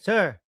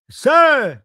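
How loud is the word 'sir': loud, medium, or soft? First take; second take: soft; loud. First: The word is said softly and quietly. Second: The word is said loudly and forcefully. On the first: "medyo mahina pa yan" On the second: "medyo malakas na"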